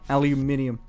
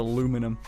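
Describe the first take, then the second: First: The word is said with five syllables. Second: The word is said with four syllables. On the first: The speaker calls it right. "That's the way I was raised to say it" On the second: The speaker calls it wrong. "It's not aluminum"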